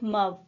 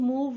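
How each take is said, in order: First: The vowel is a short 'uh' sound. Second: The vowel is a long 'oo' sound. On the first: The speaker calls it wrong. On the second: The speaker calls it right.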